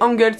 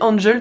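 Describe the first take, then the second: First: The name is pronounced the German way. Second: The name is pronounced a non-German way. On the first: The speaker calls it right. "c'est pour ça que je le prononce de cette manière" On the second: The speaker calls it wrong. "moi j'aurais dit Angel tout simplement"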